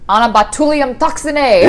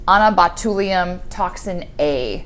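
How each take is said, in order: First: It is shouted out like a rousing battle cry. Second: It is read out in a calm, ordinary voice.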